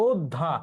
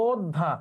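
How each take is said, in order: No difference in how they are said.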